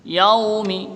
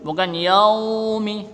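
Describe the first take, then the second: First: Yaumi with the yau kept short; correct Yaumi. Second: Yaumi with yau wrongly stretched; over-long yau in yaumi. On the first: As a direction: keep the yau in Yaumi one beat. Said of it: "tapi di ayun". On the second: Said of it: "tidak, cukup satu harokat". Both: Shown as a demonstration.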